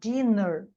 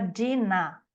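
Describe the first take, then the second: First: The final vowel is short and neutral. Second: The final vowel is opened toward an a.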